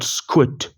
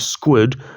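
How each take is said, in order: First: The word ends with a T sound. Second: The word ends with a D sound. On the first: The speaker calls it right. "but squid like S Q U I T" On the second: The speaker calls it wrong. "Not squid like S Q U I D"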